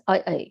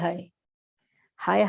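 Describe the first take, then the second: First: The word begins with a vowel, no h. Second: The word begins with an h sound. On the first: The speaker calls it wrong. "they pronounce I I" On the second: The speaker calls it right. "It is actually hi hi"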